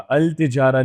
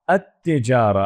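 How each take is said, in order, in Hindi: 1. आर्टिकल का L T से पहले साफ़ बोला जाता है। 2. आर्टिकल का L एक डबल T जैसी आवाज़ बन जाता है।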